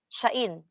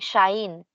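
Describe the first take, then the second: First: The word is said with two separate vowels. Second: The vowels merge so it sounds like 'shine'. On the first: This is the careful, proper pronunciation. "kung gusto natin ng proper pronunciation talaga, shain yung madidinig natin" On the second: This is how it sounds in conversational speech. "conversational Japanese, nagiging shine yung pagkaka-pronounce nila"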